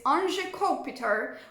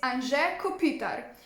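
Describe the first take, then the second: First: The name is said with an American accent. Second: The name is said with its original pronunciation. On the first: "how Americans pronounce it" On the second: "His name is"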